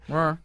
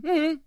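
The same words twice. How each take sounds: First: The pitch rises at the end. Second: The pitch falls at the end.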